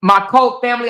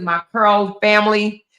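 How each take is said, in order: First: "cult" said as cult, with an L and T; corrected word. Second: "curl" said as curl, with an R; misread word. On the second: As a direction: reads the comment as "curl". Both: Shown as a demonstration. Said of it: "I think that's what you meant".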